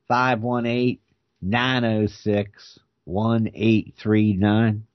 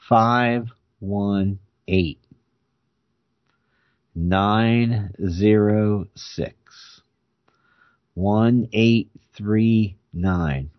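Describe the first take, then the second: First: The number is said at normal speed. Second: The number is said more slowly.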